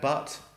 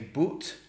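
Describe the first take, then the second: First: The vowel is an open uh sound. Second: The vowel is rounded, rhyming with put. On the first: This is how London and America say it. "But in London and America" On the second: This is how most of Great Britain says it. "They would say but to rhyme with put"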